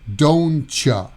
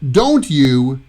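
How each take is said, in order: First: The t and y blend into a ch sound. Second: The words are said separately with a clear t.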